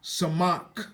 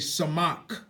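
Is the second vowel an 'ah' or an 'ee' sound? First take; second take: ah; ah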